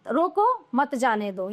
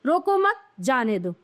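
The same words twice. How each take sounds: First: Slow "रोको", pause, then run on "मत जाने दो"; pause after रोको. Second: "रोको मत" together, break, then "जाने दो"; pause after मत. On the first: Teacher showing how the comma changes meaning, pause after "रोको". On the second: Teacher moving the comma to flip meaning, pause after "मत". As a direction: stress "मत" and pause right after it. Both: Shown as a demonstration. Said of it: "अल्प विराम का स्थान बदल जाने पर".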